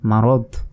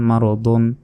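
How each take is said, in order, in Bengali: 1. শব্দটি একটি সাধারণ d ধ্বনি দিয়ে শেষ হয়। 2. শব্দটি শেষে একটি চূড়ান্ত n ধ্বনি দিয়ে শেষ হয়। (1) "থামলে মারদ শেষ করে সাকিন দিয়ে উচ্চারণ করতে হবে" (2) "না থামলে মারদন"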